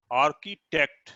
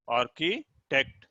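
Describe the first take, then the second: First: Said in the usual way. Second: architect slowly with a pause before टेक्ट; split into syllables. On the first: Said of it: "इसको अब आप देखिए ध्यान से". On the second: Shown as a demonstration. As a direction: break architect into Archie and टेक्ट. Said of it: "आप categorise कर पाएंगे". (Architect को आर्की, टेक्ट में रुककर बोलना)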